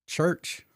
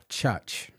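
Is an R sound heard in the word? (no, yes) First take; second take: yes; no. First: The word is said with an R sound. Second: The word is said without an R sound. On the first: The speaker calls it wrong. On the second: The speaker calls it right.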